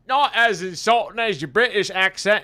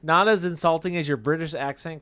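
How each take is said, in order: First: It is read in a put-on British accent. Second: It is read in the speaker's ordinary accent.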